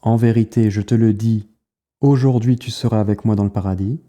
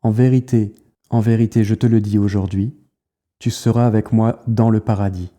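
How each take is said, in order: First: The pause comes before 'aujourd'hui'. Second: The pause comes after 'aujourd'hui'.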